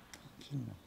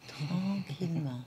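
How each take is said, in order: First: Tranquillement breathed much softer and lower; soft murmur. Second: Slow soothing. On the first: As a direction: let tranquillement fade to a hush. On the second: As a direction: draw out tranquillement slowly, at normal volume. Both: Shown as a demonstration.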